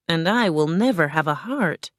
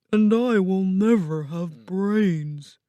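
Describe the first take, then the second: First: Lightly voiced, measured tin man; Tin Man lamenting. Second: Slow, put-on scarecrow voice; Scarecrow lamenting. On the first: Tin Man laments his missing heart, lightly voiced. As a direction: lament with little change from your own voice. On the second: Scarecrow laments his missing brains, slow character voice.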